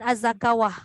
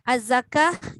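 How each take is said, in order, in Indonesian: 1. Kata itu berakhir 'zakawah' dengan bunyi 'w'. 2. Kata itu berakhir 'zakah' tanpa bunyi 'w'. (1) "jangan baca az-zakawah" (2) "Az-zakah jangan az-zakawah"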